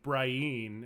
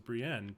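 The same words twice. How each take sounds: First: The name is said the book-reader's way. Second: The name is said the TV show's way. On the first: This is how a book reader says it. The speaker calls it wrong. "he was like Brienne" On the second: This is how the show says it. The speaker calls it right. "It was Brienne"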